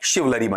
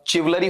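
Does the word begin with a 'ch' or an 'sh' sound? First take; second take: sh; ch. First: The word begins with an 'sh' sound. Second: The word begins with a 'ch' sound. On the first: The speaker calls it right. "बल्कि क्या बनेगा आपका वहां पर शिवलरी बनेगा" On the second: The speaker calls it wrong. "चिवलरी होना चाहिए, बिल्कुल नहीं"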